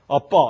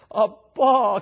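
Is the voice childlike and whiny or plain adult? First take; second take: plain adult; childlike. First: It is said in a plain adult voice. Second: It is said in a childlike, whiny voice. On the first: The speaker calls it wrong. "그냥 우리가 아버지 아빠 이건 어울리지가 않아요" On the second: The speaker calls it right. "어린아이의 어리광스러운 목소리가 거기 들어가야지 어울리지"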